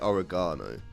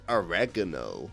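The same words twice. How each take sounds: First: It is said with a non-American pronunciation. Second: It is said with an American pronunciation. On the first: "but we say oregano" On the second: "Americans say oregano"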